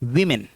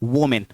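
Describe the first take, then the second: First: The first syllable is said as 'wi'. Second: The first syllable is said as 'wo'. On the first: The speaker calls it right. "नहीं, विमेन" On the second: The speaker calls it wrong. "ना कि वोमेन"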